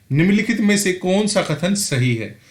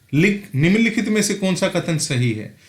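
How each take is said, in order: Both takes have the same delivery.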